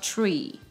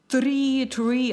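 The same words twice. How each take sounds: First: The t sounds close to a ch. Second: The t is plain, not like ch. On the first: The speaker calls it right. "а tree" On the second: The speaker calls it wrong. "Не tree"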